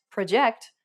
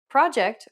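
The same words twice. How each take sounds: First: "project" as pro-JECT, end stressed; stress on second syllable. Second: First "project" as PROJ-ect, opening stressed; stress on first syllable. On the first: Teacher giving the meant word, "project" stressed at the end. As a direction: lean on the last syllable of "project". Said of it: "when you meant project". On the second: Teacher contrasting English words, "project" stressed up front. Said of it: "or project when you meant project". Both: Shown as a demonstration.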